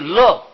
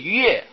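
First: The character is read as lè. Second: The character is read as yuè. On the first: "不是乐" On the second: "也不是悦"

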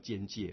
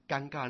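First: The word is said as jian-jie. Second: The word is said as gan-ga. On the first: "教育部已经把它改成叫尖界了" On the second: "居然尴尬那个字"

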